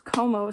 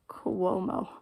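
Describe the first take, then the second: First: The name is said with two syllables. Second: The name is said with three syllables. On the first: The speaker calls it wrong. "my grandmother could never say his name right" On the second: The speaker calls it right. "for the fiftieth time, it's Cuomo"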